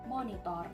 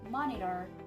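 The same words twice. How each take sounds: First: It has a clear t and full o, e, o vowels. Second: It has a d-like middle consonant and reduced vowels. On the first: "while in Indonesian, it is pronounced monitor" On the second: "In English, it is pronounced monitor"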